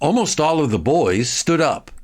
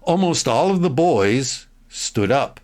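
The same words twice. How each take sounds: First: The sentence is read at a faster pace. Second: The sentence is read at a slower pace.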